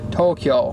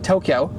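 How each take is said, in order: First: It is said with a Japanese-style pronunciation. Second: It is said with an English-style pronunciation. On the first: "in Japanese you would say" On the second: "in English we say"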